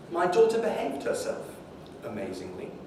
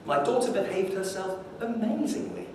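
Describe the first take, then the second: First: The word amazingly is split off as its own chunk. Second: The sentence is said as one unbroken chunk. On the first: "if you chunk it slightly differently" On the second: "the amazingly is going to re refer to the behavior of the daughter"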